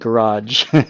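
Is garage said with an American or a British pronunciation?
American. It is said with an American pronunciation. This is how Americans usually say it. "instead of garage"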